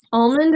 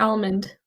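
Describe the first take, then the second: First: Almond opening on an "ah" vowel; first variant. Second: Almond opening on the vowel of "cat"; second variant. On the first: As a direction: say "almond" as AHL-mund. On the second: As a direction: say "almond" as AL-mund. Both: Shown as a demonstration. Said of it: "do you say almond or almond?".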